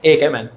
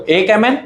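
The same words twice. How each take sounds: First: एक MN lower, with a falling tune; falling confirmation. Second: एक MN with a rising, questioning tune; counting up with a rise. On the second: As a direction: lift the end of MN like asking. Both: Shown as a demonstration. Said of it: "सभी लोग ध्यान से देखो".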